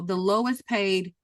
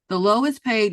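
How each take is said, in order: First: The phrase is said plainly, without extra force. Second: The phrase is said with added force and emphasis.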